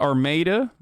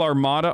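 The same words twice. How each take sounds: First: It is pronounced the local American way. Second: It is pronounced the original European way. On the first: This is how the locals say the name. The speaker calls it wrong. "In Michigan, they call Armada" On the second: This is the name as it was originally said. The speaker calls it right. "it's never said correctly"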